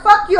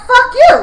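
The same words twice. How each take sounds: First: Said in the usual way. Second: Higher, louder retort; hammed-up clapback; mock yell back. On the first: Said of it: "If she would have been like". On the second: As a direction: fire it right back at her. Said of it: "I would have been like".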